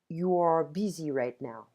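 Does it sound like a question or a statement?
statement. It is said with statement intonation. The speaker is just noticing a fact. "I'm just noticing that you are busy right now"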